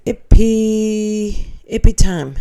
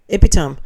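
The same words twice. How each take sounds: First: Epitome said epi-TOME with the stress on the second syllable; epitome as commenter says. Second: Epitome said EP-i-tam, stress on the first syllable, Australian way. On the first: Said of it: "Epitome is pronounced". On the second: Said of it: "here we say it's the epitome". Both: Shown as a demonstration.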